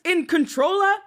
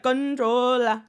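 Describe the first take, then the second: First: Said in the usual way. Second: Put-on "[name]" drawled slowly with an island accent, "con-TROH-la"; a mocking Caribbean accent on "[name]". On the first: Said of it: "straight from the islands". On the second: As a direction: stretch out "[name]" like [name]'s fake Caribbean twang. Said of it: "why all of a sudden he's like".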